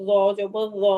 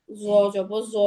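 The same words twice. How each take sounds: First: র as a heavy voiced "th"; tongue between the teeth on র; thick interdental র জবর র; tongue tip out. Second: জ as a buzzed "zaw"; tongue behind the teeth on জ; plain Z, no lisp, in জ জবর জ; tongue kept in. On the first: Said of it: "জিহ্বাটা একটু বের করে". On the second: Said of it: "এরকম উচ্চারণ হবে". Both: Shown as a demonstration.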